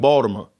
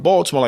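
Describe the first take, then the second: First: BALTIMORE as "Bawdamore"; German-Polish Baltimore pronunciation. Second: Said in the usual way. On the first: Shown as a demonstration. Explaining immigrant speech, BALTIMORE said as "Bawdamore". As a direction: drop the L and soften the T in BALTIMORE. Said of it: "German and Polish people pronounce the word Baltimore like". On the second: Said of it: "German and Polish people pronounce the word".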